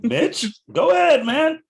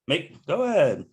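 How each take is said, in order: First: High, loud calling out. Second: Said in the usual way. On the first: Real, not acted. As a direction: call him out loud and high. Urging friend to close.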